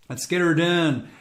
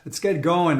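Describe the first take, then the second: First: Put-on slow, louder Midwestern redneck accent. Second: Said in the usual way. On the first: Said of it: "how was that for my, um, Western, Midwestern accent".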